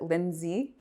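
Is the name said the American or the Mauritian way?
American. The name is said the American way.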